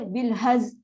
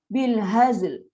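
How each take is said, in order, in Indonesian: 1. Kata ini diakhiri dengan bunyi z saja. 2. Kata ini diakhiri dengan bunyi z dan l. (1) "lam pula dah hilang" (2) "Haz untuk Zain, l untuk lam"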